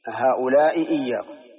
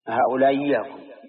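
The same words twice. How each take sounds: First: Both glottal stops are fully pronounced. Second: The first glottal stop becomes a y sound. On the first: "تحقيق الهمزتين وصفة النطق بها" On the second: "وإبدال الأولى ياء"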